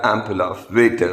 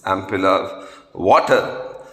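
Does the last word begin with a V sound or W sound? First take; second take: V sound; W sound. First: The last word begins with a V sound. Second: The last word begins with a W-like sound. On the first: The speaker calls it wrong. "although it's pronounced occasionally as" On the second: The speaker calls it right. "It is ampulla of water"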